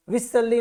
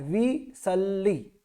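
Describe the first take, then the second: First: विसल्ली said quickly as the mistake; विसल्ली rushed, the wrong way; quick mistaken विसल्ली. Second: विसल्ली slow, with a doubled ल्ल; विसल्ली stretched, the ल held long; slow careful विसल्ली; correct way. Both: Shown as a demonstration. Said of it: "विसल्ली नहीं बोलना है".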